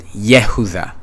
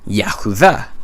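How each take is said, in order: First: The first syllable has an 'e' vowel. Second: The first syllable has an 'a' vowel. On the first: This is how most Hebrew speakers say it. "majority of people who speak Hebrew pronounce it Yehudah" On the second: This is how the speaker's own community says it. "we pronounce this word Yahudah"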